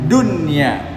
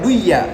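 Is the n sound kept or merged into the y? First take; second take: kept; merged. First: The n sound is clearly kept before y. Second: The n sound is merged into the y. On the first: The speaker calls it right. "harus bacanya dunia" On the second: The speaker calls it wrong. "nggak boleh baca duya"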